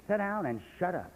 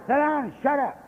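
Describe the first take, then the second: First: Flat, softer retelling of the command; quiet order. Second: Retold bark, a notch louder and higher; gruff order. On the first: Retold or imitated. Old sponsor's order retold, softly and low. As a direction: murmur it down low. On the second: Old sponsor snapping at the young drunk, gruffly. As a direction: order him to sit down and shut up. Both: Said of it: "He said".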